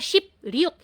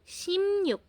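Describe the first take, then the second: First: The middle consonant is a P sound. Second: The middle consonant is an M sound. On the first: The speaker calls it wrong. "hindi siya Shipryuk" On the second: The speaker calls it right. "Simyuk ang basa nito"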